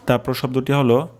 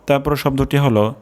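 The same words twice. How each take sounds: The two takes are said the same way.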